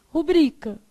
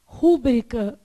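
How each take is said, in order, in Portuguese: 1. A tônica está na segunda sílaba. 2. A tônica está na primeira sílaba. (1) "mas o correto é o quê?" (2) "a gente quer falar"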